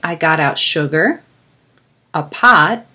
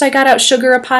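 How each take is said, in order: First: There is a pause between the items. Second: The items run together without pauses. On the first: The speaker calls it right. "It helps us pause in between the words" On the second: The speaker calls it wrong. "Here's what it would sound like without a comma"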